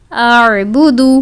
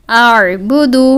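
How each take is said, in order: Both takes have the same delivery.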